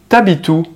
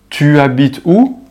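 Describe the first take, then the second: First: Tu is shortened to a t sound before habites. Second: Tu is pronounced as a full separate syllable.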